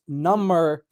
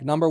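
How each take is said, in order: First: It is said like 'numb' with 'er' added. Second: It is said as the counting word. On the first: It means more numb. "my left hand was number than my right hand, like, you know, it's cold, it's numb" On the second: It names a numeral. "if I say number one, like number one, number two, number three"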